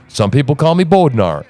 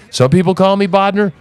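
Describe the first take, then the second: First: Bodnar said as "BOAD-nar"; another way of saying Bodnar. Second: Bodnar said as "BAHD-ner"; one way of saying Bodnar. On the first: Host showing the other way people say his name, Bodnar as BOAD-nar. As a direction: say Bodnar with long o and full -nar. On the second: Host showing how people mispronounce his name, Bodnar as BAHD-ner. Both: Shown as a demonstration.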